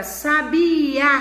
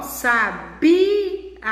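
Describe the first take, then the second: First: "sabia" said as sa-bi-Á, last vowel punched open; stress on final A. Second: "sabia" broken slowly, long punched BI, light A; stress on BI. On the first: Teacher contrasting it with the other word, stressed final A in "sabia". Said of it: "O A está acentuado". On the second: Teacher demonstrating the tonic syllable, long stressed BI in "sabia". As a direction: draw out the middle BI of "sabia". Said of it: "a sílaba tônica aí é o bi". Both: Shown as a demonstration.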